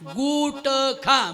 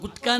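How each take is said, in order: First: The word is split with a break before kha. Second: The word is said as one joined unit. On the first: The last part is heard as the verb eat. The speaker calls it right. "गुट खा म्हणा" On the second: It is the name of the tobacco product. The speaker calls it wrong. "असं गुटखा नाही"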